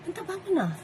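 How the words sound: It sounds let down and disappointed.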